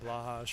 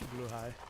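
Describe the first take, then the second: First: The name ends with a 'hash' sound. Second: The name ends with a 'high' sound. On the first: The speaker calls it wrong. "a lot of people have been pronouncing it like Blahash or whatever" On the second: The speaker calls it right. "but it's it's blue high"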